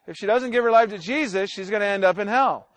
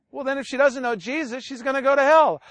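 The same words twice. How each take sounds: First: Slightly slower, measured repeat; a bit slower. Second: Said in the usual way. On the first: Retold or imitated. Preacher repeating himself to an upset relative, a bit slower. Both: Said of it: "Let me say it a little bit slower".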